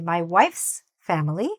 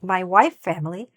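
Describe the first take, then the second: First: A clear s sound follows 'wife'. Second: No s sound is heard after 'wife'. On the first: The speaker calls it right. "now it sounds perfectly correct" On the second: The speaker calls it wrong. "if it sounds like my wife family, then that's a grammatical mistake"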